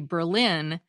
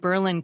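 First: It is said the way outsiders say it. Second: It is said the way locals say it. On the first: The speaker is not from there. The speaker calls it wrong. "can identify an outsider when we call the city Berlin" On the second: The speaker is from there. The speaker calls it right. "just like people in Berlin, Connecticut"

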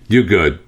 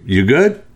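First: The voice falls at the end, as a statement. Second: The voice rises at the end, as a question.

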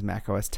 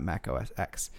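First: The final X is said as 'ten'. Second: The final X is said as the letter 'ex'. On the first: The speaker calls it right. "that is a Roman numeral X, not pronounced X though, just like Mac OS X was Mac OS X" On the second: The speaker calls it wrong. "and not Mac OS X"

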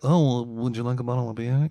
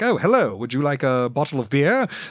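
First: It is said in a casual, realistic way. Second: It is said in a polished, idealized way.

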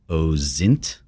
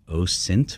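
First: The middle consonant is a buzzing z sound. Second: The middle consonant is a hissing s sound. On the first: The speaker calls it wrong. "OSINT with a Z" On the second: The speaker calls it right. "It's OSINT with a soft S"

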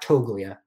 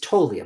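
First: The G in the middle is pronounced. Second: The G in the middle is silent. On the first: The speaker calls it wrong. "not Toglia" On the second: The speaker calls it right. "There's a G in there, but we don't pronounce it"

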